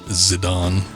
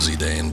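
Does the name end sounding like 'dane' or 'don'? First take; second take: don; dane. First: The name ends with a 'don' sound. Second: The name ends with a 'dane' sound. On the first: This is the pronunciation actually used. "the Don part instead of Dane" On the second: This is the pronunciation the speaker expected. "I still would have thought it would have been Zidane"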